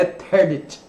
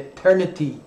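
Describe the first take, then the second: First: The final 'y' sound is dropped. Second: The final 'y' sound is clearly pronounced. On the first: The speaker calls it wrong. "o brasileiro tem a tendência de comer o Y ... Não é Eternity" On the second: The speaker calls it right. "é Eternity, né? Y tem que pronunciar"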